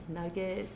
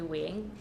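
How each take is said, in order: First: The name is said as two syllables. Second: The name is said as one short syllable. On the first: The speaker calls it wrong. "people pronounce it as like Nugget" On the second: The speaker calls it right. "which is actually Wing"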